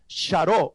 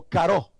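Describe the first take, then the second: First: "charó" with an opening ch sound; ch pronunciation. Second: "caró" with a hard k opening; k pronunciation. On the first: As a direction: say "charó" with ch, stressed on the final ó. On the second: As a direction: say "caró" with k, stressed on the final ó. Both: Shown as a demonstration. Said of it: "se pronuncia caró".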